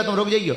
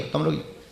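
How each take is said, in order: First: Said in the usual way. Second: Much softer, lower repeat of तुम रुक जाइयो; quietly repeating तुम रुक जाइयो to a man in the crowd. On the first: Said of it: "repeated request". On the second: Real, not acted. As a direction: drop the voice to a soft aside on तुम रुक जाइयो. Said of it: "repeated softer".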